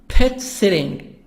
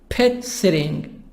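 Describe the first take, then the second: Both takes have the same delivery.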